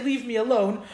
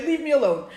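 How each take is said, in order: First: Said in the usual way. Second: A mildly irritated leave me alone; annoyed brush-off. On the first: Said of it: "when somebody is annoying you". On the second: Shown as a demonstration. Brushing off someone nagging, mildly annoyed. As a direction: wave off a pest who won't stop talking. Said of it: "When they beg you and they talk too much".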